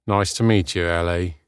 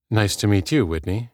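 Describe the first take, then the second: First: Falling, uninterested greeting; disinterested. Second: Said in the usual way. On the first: A narrator's reading. Whitney meeting Ellie, reeking of disinterest. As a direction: greet as if you could not care less. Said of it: "voice reeked of disinterest".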